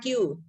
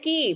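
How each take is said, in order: First: The letter name is said as 'kyoo'. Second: The letter name is said as 'kee'. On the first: The speaker calls it wrong. "bukan Q" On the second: The speaker calls it right. "bacanya ki"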